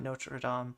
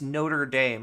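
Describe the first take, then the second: First: It is said with a non-American pronunciation. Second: It is said with an American pronunciation. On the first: The speaker calls it wrong. "Not Notre Dame" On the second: The speaker calls it right. "That's how you pronounce it. The American college is Notre Dame"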